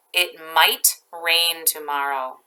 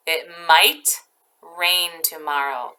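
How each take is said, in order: First: Said in the usual way. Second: A little slower, stressing might; slow it down for the class; careful repeat so kids catch it; slow example sentence. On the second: Shown as a demonstration.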